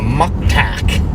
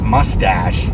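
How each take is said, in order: First: The word is pronounced with a Thai accent. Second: The word is pronounced in standard English. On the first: "she calls it a muktak" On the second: "I think she means mustache"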